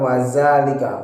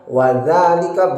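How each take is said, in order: First: The word begins with a buzzing 'z' sound. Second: The word begins with a soft 'th' sound. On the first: The speaker calls it wrong. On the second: The speaker calls it right. "jangan dibaca za"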